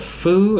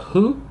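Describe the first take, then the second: First: The syllable begins with an F-like sound. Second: The syllable begins with an H sound. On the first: "it makes like a foo" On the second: "instead of a who"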